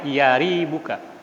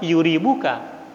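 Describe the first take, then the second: First: The first syllable has an 'a' vowel. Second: The first syllable has a 'u' vowel. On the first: "Yaribuka bi fathil ya, dibaca fathah ya" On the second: "dengan dhammah"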